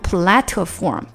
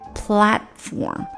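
First: The t sound is fully released aloud. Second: The t sound is held and not released. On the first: The speaker calls it wrong. "你不能platform 就不好听了" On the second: The speaker calls it right. "这个t 没太出来"

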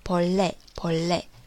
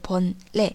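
First: The word is said with the consonant sound changed. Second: The word is said without any sound change. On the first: "有音变的时候呢，要读成본래" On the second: "没有音变的时候是본래"

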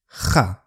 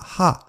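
First: The h sound is strong and harsh. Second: The h sound is very light and soft. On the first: This is the Spanish pronunciation. "我们的ha 更像ha ha" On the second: This is the English pronunciation. "在英语发音那个ha 很轻轻的"

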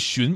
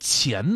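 First: The syllable is pronounced xun, with a rising tone. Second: The syllable is pronounced qian, with a rising tone. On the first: This is the reading used in the modern word for hives. The speaker calls it wrong. "之前这个字儿根本就不念荨" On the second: This is the older reading, still used for the plant. The speaker calls it right. "应该读钱呐"

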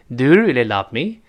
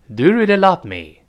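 First: The voice rises at the end. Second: The voice falls at the end. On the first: The speaker calls it right. "最后声音是翘起来的。 都是往上扬的声音" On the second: The speaker calls it wrong. "不能往下降。 这是不行的"

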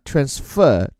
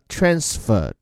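First: The stress is on the second syllable. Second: The stress is on the first syllable. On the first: It is used as a verb. "做动词讲呢transfer 重音在后" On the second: It is used as a noun. "做名词讲呢transfer 重音在前面"

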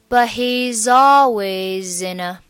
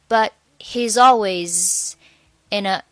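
First: All four words run together without a break. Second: There is a break between always and in. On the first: "always 和in 和a 又可以连在一起读" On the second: "中间的我们always 和in 就不在一起连了"

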